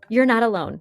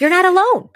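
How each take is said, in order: First: Said in the usual way. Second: High, loud mock echo; mock outraged repeat. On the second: Friend mocking the excuse with outrage. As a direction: throw the line back, outraged.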